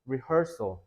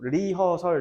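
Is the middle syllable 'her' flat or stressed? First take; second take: stressed; flat. First: The middle syllable 'her' is raised and stressed. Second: The syllables are said evenly, with no raised syllable. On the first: The speaker calls it right. "her를 살짝 이렇게 좀 올려야 된다" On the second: The speaker calls it wrong. "리허설 이렇게 하면 안 들려"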